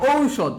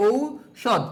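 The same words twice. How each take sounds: First: Said in the usual way. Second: ঔষধ drawn out slowly as ou, pause, shodh; syllable by syllable. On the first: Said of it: "ঔ থাকলে কি হবে". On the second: Shown as a demonstration. Teacher showing how ঔ sounds, ঔষধ slowly broken in two. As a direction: split ঔষধ slowly after a long ou. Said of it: "ঔ থাকলে ও রস্যাউ".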